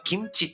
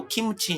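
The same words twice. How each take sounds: First: キムチ said as in Korean, two syllables; キムチ with a Korean closed m, no vowel after it; Korean pronunciation. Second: キムチ said as in Japanese, three even morae; キムチ as "ki-mu-chi", Japanese style; Japanese pronunciation. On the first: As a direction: say キムチ the native Korean way, "gimchi". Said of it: "キムチは日本語でキムチですよね". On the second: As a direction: say キムチ with a full "mu". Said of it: "日本語でキムチですよね". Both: Shown as a demonstration.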